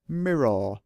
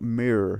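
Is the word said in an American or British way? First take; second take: British; American. First: It is said with a British pronunciation. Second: It is said with an American pronunciation. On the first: The speaker calls it right. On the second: The speaker calls it wrong. "Not mirror"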